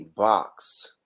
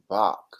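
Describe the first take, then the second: First: The word is said fully, with every sound clear. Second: The word is said fast, with its ending cut. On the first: This is the ordinary way to say it. "he wouldn't say box" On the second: This imitates how someone else used to say it. "He would say Bach. So it was like it was like a fast"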